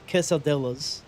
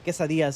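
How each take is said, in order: First: The word is said with an Anglicized pronunciation. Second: The word is said with a Spanish-style pronunciation. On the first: The speaker calls it wrong. "y'all say quesadillas. The fuck is wrong with you?" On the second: The speaker calls it right. "instead of saying quesadillas"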